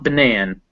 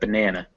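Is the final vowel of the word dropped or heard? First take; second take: dropped; heard. First: The final weak vowel is dropped. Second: A small final weak vowel is heard. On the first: The speaker calls it wrong. "It's not banan" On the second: The speaker calls it right. "but banana"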